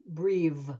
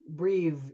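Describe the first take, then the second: No difference in how they are said.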